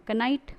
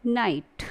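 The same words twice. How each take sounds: First: "कनाइट" with K and short vowel before N; two syllables ka-NITE for "कनाइट"; K wrongly sounded. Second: "नाइट" starting straight on N; one syllable "नाइट", no K; silent K. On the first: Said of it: "कनाइट is wrong pronunciation". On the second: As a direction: drop the K in "नाइट". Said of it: "आप इसे पढ़ेंगे". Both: Shown as a demonstration.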